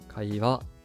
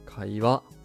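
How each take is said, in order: First: The pitch stays low, then rises on the last mora. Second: The pitch stays low, then rises on the last mora.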